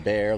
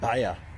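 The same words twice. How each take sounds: First: It is said with an American English pronunciation. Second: It is said with the local German pronunciation. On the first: This is how people in the US say it. "We say Bayer, like Bayer aspirin" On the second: This is how people in Germany say it. "pronounce it Bayer here"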